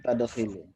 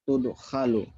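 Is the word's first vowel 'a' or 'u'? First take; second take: a; u. First: The word is read with the vowels a and i. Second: The word is read with the vowels u and a. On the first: The speaker calls it wrong. "Bukan tadkhilu" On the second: The speaker calls it right. "tudkhalu ya"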